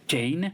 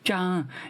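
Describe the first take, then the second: First: The name is said the English way, one syllable. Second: The name is said the French way, two vowels.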